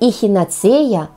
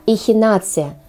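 First: The stress is on the fourth syllable. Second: The stress is on the third syllable. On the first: The speaker calls it wrong. "Не эхинация" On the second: The speaker calls it right. "Именно так следует произносить это слово"

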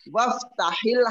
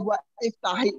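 First: Wa runs straight into ftah without a stop. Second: A glottal stop separates wa from iftah. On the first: The speaker calls it right. "hamzanya itu enggak kedengaran. Langsung" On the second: The speaker calls it wrong. "enggak akan dibaca gua iftahi, enggak bakal dibaca begitu"

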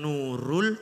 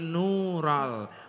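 First: The vowel after the r sounds like u. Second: The vowel after the r sounds like a. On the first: The speaker calls it wrong. "Mboten Nurul" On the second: The speaker calls it right. "tapi Nural"

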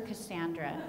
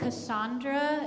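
First: The name is said in a Greek-style way. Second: The name is said in a French-style way. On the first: This is closer to the ancient form of the name. The speaker calls it right. "but I prefer Cassandra" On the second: This is a later, Frenchified form of the name. The speaker calls it wrong. "you can pronounce it Cassandra if you want"

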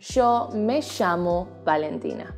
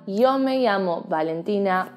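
First: The y and ll sounds are said as sh. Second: The y and ll sounds are said as y.

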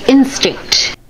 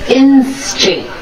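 No difference in how they are said.

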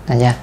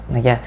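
The two takes are said the same way.

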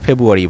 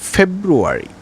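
First: The r sound after the b is dropped. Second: The r sound after the b is pronounced. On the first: The speaker calls it wrong. "অনেকে আমরা ফেব্রুয়ারি বলি, no" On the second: The speaker calls it right. "আর এর পরে vowel থাকলে অবশ্যই সেই আর এর উচ্চারণ আপনাদেরকে করতেই হবে"

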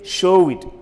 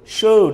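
First: The ending adds an extra syllable. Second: The ending is only a d sound. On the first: The speaker calls it wrong. "Don't say show it" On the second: The speaker calls it right. "You should say showed"

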